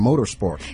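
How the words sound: It is said in an American accent.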